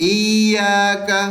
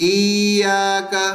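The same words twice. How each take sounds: No difference in how they are said.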